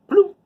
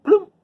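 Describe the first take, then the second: No difference in how they are said.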